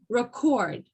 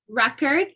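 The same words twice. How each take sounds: First: The stress is on the second syllable. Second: The stress is on the first syllable. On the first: It is used as a verb. "the o is emphasized" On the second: It is used as a noun. "the re is emphasized"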